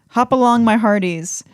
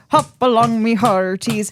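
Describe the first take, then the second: First: It is read in a normal speaking voice. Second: It is read in a put-on pirate voice.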